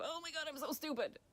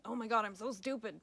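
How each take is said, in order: First: Higher, put-on exasperated self-scolding; mocking inner critic. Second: Louder, exasperated self-scolding; self-critical outburst. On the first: Coach mimics falling back into self-blame: higher mocking whine. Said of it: "fall right back into". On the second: Retold or imitated. Coach imitates the inner critic's voice: a louder exasperated groan. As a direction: berate yourself over a mistake. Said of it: "going down the ... pathway".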